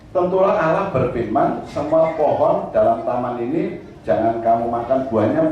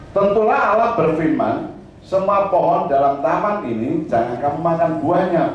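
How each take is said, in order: Both takes have the same delivery.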